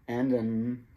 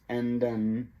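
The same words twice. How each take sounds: Both takes have the same delivery.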